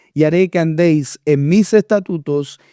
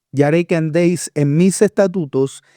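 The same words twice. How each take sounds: The two takes are said the same way.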